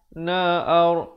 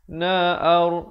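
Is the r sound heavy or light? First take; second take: heavy; heavy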